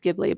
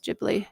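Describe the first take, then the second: First: The word begins with a hard G sound. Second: The word begins with a J sound. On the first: "maybe it can also be pronounced Ghibli" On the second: "the Japanese pronunciation is Ghibli"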